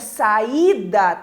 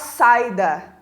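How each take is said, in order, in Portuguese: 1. O som do i é forte e cheio. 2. O som do i é fraco e apagado. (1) "Esse I é pronunciado também com intensidade" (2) "para esse I ficar fraco e apagado"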